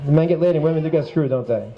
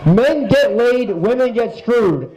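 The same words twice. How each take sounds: First: Quick, low aside; offhand check. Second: Slow, spaced-out announcement; category announcement. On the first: Host double-checking his category title, quick low aside. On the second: Host announcing a joke category to the crowd, slow and deliberate. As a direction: announce it slowly, word by word. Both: Real, not acted.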